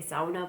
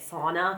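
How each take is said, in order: First: It is said with a German-style pronunciation. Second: It is said with a typical American pronunciation. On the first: "I say sauna" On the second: "most Americans would say sauna"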